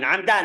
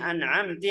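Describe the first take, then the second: First: The word ends with an 'a' vowel. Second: The word ends with an 'i' vowel. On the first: The speaker calls it right. "Langsung itu semuanya na'amta" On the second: The speaker calls it wrong. "Itu namanya lahn jali. Sudah salah"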